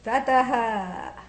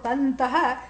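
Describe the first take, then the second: First: No n sound comes before the second t. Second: An n sound comes before the second t. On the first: The speaker calls it right. "you say tataha. Much cleaner, much nicer" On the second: The speaker calls it wrong. "you don't say"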